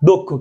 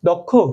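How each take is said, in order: First: The first vowel is a closed 'o' sound. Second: The first vowel is an open 'aw' sound. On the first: The speaker calls it right. "অ ও হয়ে যাবে" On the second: The speaker calls it wrong. "নট"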